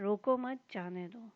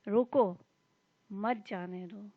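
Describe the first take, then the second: First: There is a pause after the second word. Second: There is a pause after the first word. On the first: Do not stop the person; let them go. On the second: Stop the person and do not let them go.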